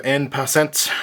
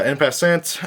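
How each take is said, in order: First: "En Passant" in a light mock French accent, nasal "En"; French accent attempt. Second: Said in the usual way. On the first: Shown as a demonstration. Card vlogger naming the card in a light mock French accent. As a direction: say "En Passant" the French way, only half committed. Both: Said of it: "tried my best French accent there".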